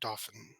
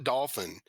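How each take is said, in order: First: The word does not sound like 'dolphin'. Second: The word sounds like 'dolphin'. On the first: The speaker calls it right. "is Dauphin or Dauphin" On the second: The speaker calls it wrong. "not Dolphin"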